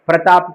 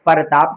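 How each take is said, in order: First: The word starts with the cluster 'pr'. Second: A vowel is inserted between 'p' and 'r'. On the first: The speaker calls it right. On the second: The speaker calls it wrong.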